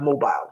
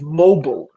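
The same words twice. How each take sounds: First: Mobile is said with the cell-phone pronunciation. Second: Mobile is said with the speaker's own pronunciation. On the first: It names the cell phone. The speaker calls it wrong. "not mobile. Mobile is your cell phone" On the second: It names the economy of people on the move. The speaker calls it right. "But I say it's mobile"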